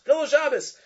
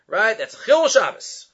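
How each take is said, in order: First: "Chil Shabbos" pitched much higher and pressed; emphatic repeat. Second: Said in the usual way. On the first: Real, not acted. Rabbi hammers the ruling home to students, emphatic high stress.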